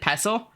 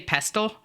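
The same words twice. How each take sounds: First: The T in the middle is silent. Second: The T in the middle is pronounced. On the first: This is how the speaker has always said it. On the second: This is how many other people say it.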